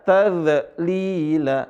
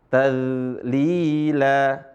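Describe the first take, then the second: First: The z is cut short with a bounce. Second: The z sound is held and flows smoothly. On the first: The speaker calls it wrong. "Bukan dibaca tazlila" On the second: The speaker calls it right. "tapi dialirin suaranya"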